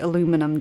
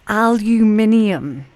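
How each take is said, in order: First: It is said with four syllables, ending '-inum'. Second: It is said with five syllables, ending '-inium'. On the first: This is the form used in Canada and the USA. "I know you guys say aluminum" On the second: This is the speaker's own usual form. "the way I pronounce the next word"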